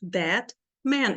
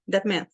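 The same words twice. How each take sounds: First: THAT, pause, MAN, each a full beat; unhurried "That ... man", both words strong; both words stressed. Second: "That man" rushed together with no gap; hurried "That man", second word not given its own beat; too fast. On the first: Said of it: "As duas palavras são tônicas". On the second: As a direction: run "That man" into one quick burst. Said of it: "Eu não posso falar rápido aqui". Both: Shown as a demonstration.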